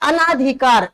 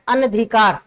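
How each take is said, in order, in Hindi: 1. दूसरे अक्षर में लंबा 'aa' स्वर है। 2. दूसरे अक्षर में छोटा 'a' स्वर है। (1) "वो गलत बोलते हो आप" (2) "शुद्ध शब्द होता है अनधिकार"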